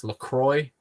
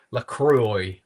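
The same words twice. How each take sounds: First: LaCroix said as la-CROY, rising like a question; trying out a pronunciation. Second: LaCroix said as la-KROO-ee, falling at the end; trying out a pronunciation. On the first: Asking viewers how to say it, testing LaCroix as la-CROY. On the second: Unsure of the brand name, testing LaCroix as la-KROO-ee. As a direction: LaCroix tried as la-KROO-ee, with a questioning rise. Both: Shown as a demonstration. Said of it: "How do you say this?".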